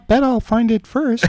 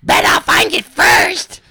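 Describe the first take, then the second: First: Put-on higher-pitched girl voice; girl's voice. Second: High, drawn-out mock-girl screech; Dina. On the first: Host reading the sister's teasing line, girl's voice. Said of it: "this is a girl's voice". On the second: Older sister teasing her brother, shrieky girl voice. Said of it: "here, I'll do Dina".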